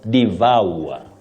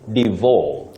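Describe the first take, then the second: First: The vowel glides through three vowel sounds. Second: The vowel does not glide through three sounds. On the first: The speaker calls it right. "the correct pronunciation of that word is devour" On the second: The speaker calls it wrong. "many people innocently say devour"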